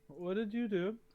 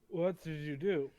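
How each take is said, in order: First: It is asked in a plain, neutral tone. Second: It is asked in a stern, serious tone.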